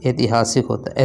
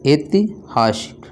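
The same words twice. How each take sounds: First: Said in the usual way. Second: ऐतिहासिक drawn out slowly, syllable by syllable; slow careful pronunciation. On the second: Shown as a demonstration. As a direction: spell ऐतिहासिक out slowly for the class. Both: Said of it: "ऐसे".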